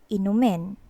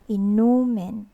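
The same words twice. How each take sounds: First: It is said quickly and straight through. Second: It is said slowly, leaning on the middle syllable. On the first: It is a command to drink something. "if we pronounce it fast" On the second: It names alcoholic drinks. "more emphasis on this area. Nu"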